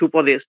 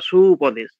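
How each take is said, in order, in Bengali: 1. প্রথম স্বরধ্বনিটি দ্রুত ও হ্রস্ব করে বলা হয়। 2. প্রথম স্বরধ্বনিটি টেনে ও দীর্ঘ করে বলা হয়। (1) "চট করে হ্রস্ব উচ্চারণ যদি করি" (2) "তবে দীর্ঘ উচ্চারণটা এলো"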